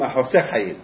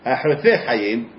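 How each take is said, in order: First: The first word is said with an 's' sound. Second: The first word is said with a 't' sound. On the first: It means withholding life, the opposite. The speaker calls it wrong. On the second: It means cutting off life. The speaker calls it right.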